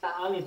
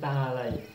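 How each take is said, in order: First: The word ends with an 'ee' sound. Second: The word ends with an 'eye' sound. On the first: The speaker calls it wrong. "bukan ta'ali" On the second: The speaker calls it right. "tapi ta'alai"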